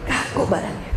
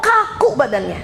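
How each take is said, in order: First: Softer, lower repeat of Kaku badannya, dropping away; quiet echo. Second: Said in the usual way. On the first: Shown as a demonstration. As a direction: let Kaku badannya sink into a hushed echo. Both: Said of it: "repeats the phrase for effect".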